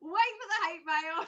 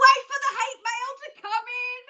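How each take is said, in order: First: Said in the usual way. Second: Mock dread. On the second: Joking about hate mail.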